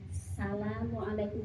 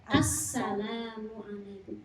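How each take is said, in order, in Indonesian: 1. Assalamualaikum diucapkan kabur, tanpa konsonan ganda. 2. Assalamualaikum diucapkan jelas, konsonan ganda ditahan. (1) "nggak boleh" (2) "kudu jelas"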